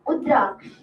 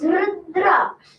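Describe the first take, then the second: First: The name starts without an R sound. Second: The R sound is heavily exaggerated. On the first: "one time there is no R" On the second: "One time there is too much R"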